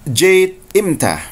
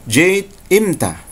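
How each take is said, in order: Both takes have the same delivery.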